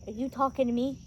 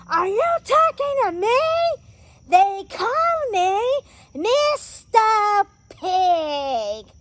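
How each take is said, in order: First: Quoted movie line. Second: High, loud mock-outraged shout; Pumbaa's outraged roar. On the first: Acted. Reviewer acting Pumbaa facing the hyenas, restrained first question. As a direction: ask it quietly, holding back before the blow-up. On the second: Reviewer acting Pumbaa confronting the hyenas, outraged shout. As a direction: build to a drawn-out, indignant bellow.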